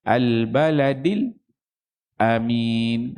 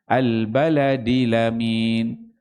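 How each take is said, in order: First: A brief stop comes before the final word. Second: The final word joins smoothly onto the previous sound. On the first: "Kalau dia baca saktah" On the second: "kalau naqal"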